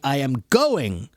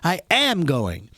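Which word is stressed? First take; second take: going; am. First: The stress is on the word going. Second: The stress is on the word am.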